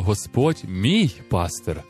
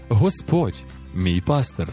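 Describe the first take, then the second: First: The emphasis falls on the word мій. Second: The emphasis falls on the word Господь. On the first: The Lord is personally mine, not just everyone's. "Таким чином ми робимо Бога Господом своїм особистим Богом" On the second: It is the Lord, master of life, who shepherds. "Таким чином ми виділяємо саме Бога як Господа"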